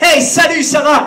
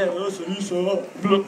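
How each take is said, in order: First: It sounds lively, upbeat and enthusiastic. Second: It sounds flat, sleepy and unmotivated.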